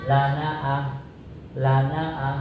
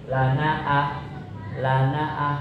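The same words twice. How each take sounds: Both takes have the same delivery.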